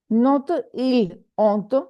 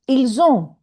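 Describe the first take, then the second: First: The s is silent, with no link between words. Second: The s is sounded as z, linking the words. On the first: The speaker calls it wrong. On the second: The speaker calls it right. "we say ils ont"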